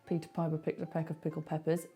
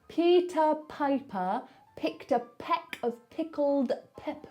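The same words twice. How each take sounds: First: It is read quickly and flatly, without effort. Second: Every sound is mouthed big and very clearly. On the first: The speaker calls it wrong. "don't just read it" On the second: The speaker calls it right. "read it like you are reading to someone who can't hear you"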